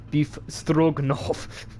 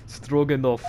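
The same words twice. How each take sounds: First: Put-on very slow, grand Russian accent, a bit higher; drawn-out Russian accent. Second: Put-on giggling, slow Russian accent; laughing Russian sailor accent. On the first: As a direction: announce your name like a Russian dish. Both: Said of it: "I like to do Russian accents".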